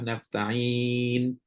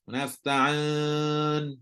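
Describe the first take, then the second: First: The last vowel is a close 'i' sound. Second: The last vowel is an open 'a' sound. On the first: The speaker calls it right. "Bunyi huruf ya kan" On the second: The speaker calls it wrong. "Campur bunyi dengan bunyi alif"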